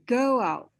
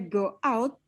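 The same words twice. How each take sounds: First: The two words are linked together smoothly. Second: The two words are said separately. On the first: The speaker calls it right. "she already used the linking between go and out" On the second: The speaker calls it wrong. "Not say go out"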